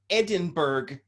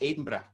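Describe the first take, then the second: First: It is said with the local Canadian pronunciation. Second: It is said with the standard pronunciation. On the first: Locals will understand it. The speaker calls it wrong. "you have to say it like that for anyone around here to understand" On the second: This is the proper form. The speaker calls it right. "it's supposed to be Edinburgh"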